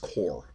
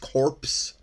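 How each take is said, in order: First: The final p and s sounds are silent. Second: The final p and s sounds are pronounced. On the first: The speaker calls it right. "but it's Corps. It's like a silent" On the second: The speaker calls it wrong. "It looks like it's Corps, C-O-R-P-S"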